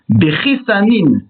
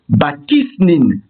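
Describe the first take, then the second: First: It begins with 'be' and ends with 'sanin'. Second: It begins with 'ba' and ends with 'snin'. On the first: The word has no definite article. "sans article défini et avec un qamas sous le samer" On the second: The word has the definite article. "avec l'article défini"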